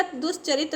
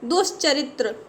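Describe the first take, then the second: First: दुष्चरित ending in a bare 't'; wrong pronunciation. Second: दुष्चरित्र ending in 'tra'; correct pronunciation. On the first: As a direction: drop the final r from दुष्चरित. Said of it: "नहीं होता". (दुष्चरित के अंत में केवल 'त' बोलें) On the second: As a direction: sound the r in the last cluster of दुष्चरित्र. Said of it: "त्रा बनेगा". (दुष्चरित्र के अंत में 'त्र' बोलें) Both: Shown as a demonstration.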